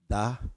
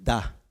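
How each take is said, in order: First: It is said weakly and hesitantly. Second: It is said forcefully with conviction.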